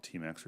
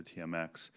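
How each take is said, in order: First: "T M X" run together as TEE-max; said as a word. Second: "T M X" said letter by letter, tee-em-ex; spelled-out letters. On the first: Questioner giving the pipeline's nickname, "T M X" pronounced TEE-max. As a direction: say "T M X" as two syllables, TEE-max. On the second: Questioner giving the pipeline's other name, "T M X" said tee-em-ex. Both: Shown as a demonstration. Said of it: "we call it T M X or T M X".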